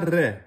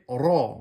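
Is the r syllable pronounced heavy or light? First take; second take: light; heavy. First: The r syllable sounds light and thin. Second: The r syllable sounds heavy and deep. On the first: The speaker calls it wrong. "vous ne direz pas Ré" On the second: The speaker calls it right. "vous l'emphatisez, vous la prononcez de façon grave"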